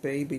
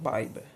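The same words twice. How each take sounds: First: Said in the usual way. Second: Put-on BABY drawled Southern as "bah-buh"; Southern accent. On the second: Shown as a demonstration. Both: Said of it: "in my southern accent".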